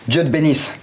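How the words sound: It is said in a furious, angry tone. "Le vénère"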